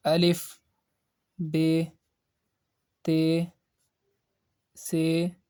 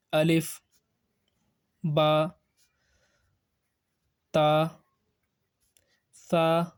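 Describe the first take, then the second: First: Urdu letter names, Be, Te, Se with long "ay" vowels; Urdu accent. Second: Arabic letter names, Ba, Ta, Sa with open "aa" vowels; Arabic accent. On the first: Teacher shows pronunciation to avoid, Urdu accent. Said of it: "Urdu accent, like". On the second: Teacher models letters for pupils, Arabic accent. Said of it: "this is the Arabic accent". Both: Shown as a demonstration.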